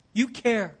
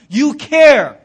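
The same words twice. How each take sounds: First: You care, dropped to a much softer, gentle echo; Jesus repeating it quietly, tenderly; soft repetition. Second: You care, punched out much louder; Jesus pressing the point home, loud; forceful insistence. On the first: Same words repeated softly. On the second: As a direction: hit care hard, like a command. Jesus voiced insisting, repeated. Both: Acted.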